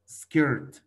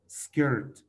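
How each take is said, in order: Both takes have the same delivery.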